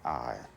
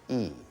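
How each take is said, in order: First: The vowel sounds like 'eye'. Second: The vowel sounds like 'ee'. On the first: This is the modern English pronunciation. "the personal pronoun I" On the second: This is the Middle English pronunciation. "is pronounced in Middle English E"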